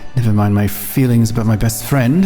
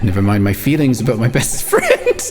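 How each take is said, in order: First: The line is read with a longing tone. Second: The line is read plainly, without longing.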